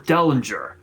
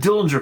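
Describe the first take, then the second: First: The first syllable sounds like 'dell'. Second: The first syllable sounds like 'dill'. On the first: The speaker calls it right. "Had to make sure that I pronounced it right" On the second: The speaker calls it wrong. "not Dillinger Core"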